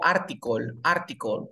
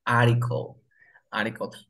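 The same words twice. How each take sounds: First: ARTICLE with a hard T after the R; T pronunciada. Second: ARTICLE with no T, like "aricol"; T muda. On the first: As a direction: sound out the T in ARTICLE. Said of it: "Yo la pronuncio como". (ARTICLE con la T marcada) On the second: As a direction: drop the T after R in ARTICLE. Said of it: "¿Cómo sería esa palabra?". (ARTICLE sin pronunciar la T) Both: Shown as a demonstration.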